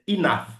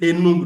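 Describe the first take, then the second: First: It is pronounced like 'inaf'. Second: It is not pronounced like 'inaf'. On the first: The speaker calls it right. "c'est Inaf. Ça se lit comme si on avait écrit I N A F" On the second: The speaker calls it wrong. "Il y a des gens qui disent Enough, non"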